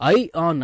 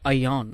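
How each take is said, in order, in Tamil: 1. இரண்டு சொற்களும் தனித்தனியாக சொல்லப்படுகின்றன. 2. இரண்டு சொற்களும் சேர்ந்து ஒன்றாக சொல்லப்படுகின்றன.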